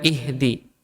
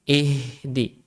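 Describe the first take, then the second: First: "ihdi" with a brief h; cut-short h. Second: "ihdi" slow with a long streaming h; flowing h. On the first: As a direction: say "ihdi" without letting the h flow. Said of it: "bukan ihdi". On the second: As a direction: draw the h out in "ihdi". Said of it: "dialirkan hurufnya". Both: Shown as a demonstration.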